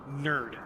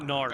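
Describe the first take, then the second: First: The syllable has an 'er' vowel, like 'bird'. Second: The syllable has an 'ar' vowel, like 'hard'. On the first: The speaker calls it right. "Nerd, not Nard" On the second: The speaker calls it wrong. "not Nard"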